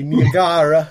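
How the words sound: Niagara is said with an Italian-style pronunciation.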